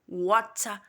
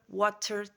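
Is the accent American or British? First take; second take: British; American. First: It is said in a British accent. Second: It is said in an American accent. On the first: "o britânico ... ele vai falar" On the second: "o americano ele fala"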